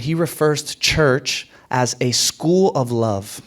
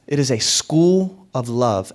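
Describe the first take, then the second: First: Said in the usual way. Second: School leaned on, slow and falling; stress on school. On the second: Shown as a demonstration. Pastor defining church, stressing school. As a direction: hit the word school. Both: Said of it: "Emphasis on the word school".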